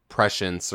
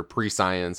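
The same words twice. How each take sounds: First: "prescience" said as PRESH-ence; first pronunciation try. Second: "prescience" said as pree-SCIENCE; alternative pronunciation try. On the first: Podcaster unsure how to pronounce the buff's name, "prescience" as PRESH-ence. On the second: Podcaster offering another guess at the buff's name, "prescience" as pree-SCIENCE. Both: Shown as a demonstration. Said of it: "however the fuck you're supposed to pronounce that".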